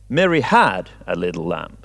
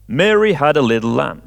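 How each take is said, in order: First: The stress is on had. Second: The stress is on Mary.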